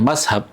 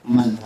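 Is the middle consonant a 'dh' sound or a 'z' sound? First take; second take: z sound; dh sound. First: The middle consonant is a plain 'z' sound. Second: The middle consonant is a soft 'dh' sound. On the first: This is a dialect pronunciation. "itu itu lebih ke dialek" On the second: This is the precise Arabic pronunciation. "secara pelafalan sebenarnya mazhab"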